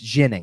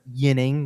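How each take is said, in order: First: The name begins with a soft zh-like sound. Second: The name begins with a y sound. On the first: The way the player himself says it. The speaker calls it right. "it's ginning... a little bit of a um like an Alexei Zhitnik kind of pronunciation" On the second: The usual Swedish way of saying it. The speaker calls it wrong. "it is not yinning... more of what the Swedish pronunciation should be"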